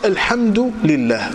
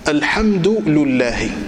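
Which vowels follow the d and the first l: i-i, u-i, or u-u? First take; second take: u-i; u-u. First: The d takes u and the l takes i. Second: The d takes u and the l takes u. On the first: "الدال هنا علامة الرفع" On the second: "أتبع اللام حركة الدال"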